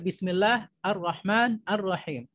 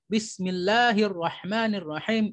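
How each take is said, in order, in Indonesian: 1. Kata-katanya terpisah dengan vokal yang berdiri sendiri. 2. Kata-katanya tersambung dengan lancar tanpa jeda. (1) "kalau salahnya kita baca" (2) "itu adalah bacaan yang benar"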